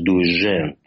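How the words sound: The middle consonant sounds like 'zh'. "если говорить именно с флорентийским таким акцентом"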